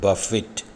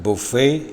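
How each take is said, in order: First: The word ends with an 'it' sound. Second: The word ends with an 'ay' sound. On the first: It means to strike repeatedly. "ശക്തമായ പ്രഹരം, ഇടി എന്നീ അർത്ഥങ്ങൾ വരുമ്പോൾ ഇതിൻ്റെ ഉച്ചാരണം ബഫിറ്റ് എന്നാണ്" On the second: It means a self-service meal. "ഭക്ഷണവുമായി ബന്ധപ്പെട്ട അർത്ഥം വരുമ്പോൾ ഈ വാക്കിൻ്റെ ഉച്ചാരണം ബുഫേ എന്നാണ്"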